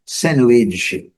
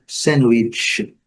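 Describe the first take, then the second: First: "sandwich" with the D sounded, British style; careful British "sandwich"; British pronunciation. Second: "sandwich" as SAN-wich, American style; careful American "sandwich"; American pronunciation. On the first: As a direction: say "sandwich" as SAND-wich. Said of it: "se for no inglês britânico". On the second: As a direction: say "sandwich" with no clear D. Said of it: "se for no inglês americano". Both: Shown as a demonstration.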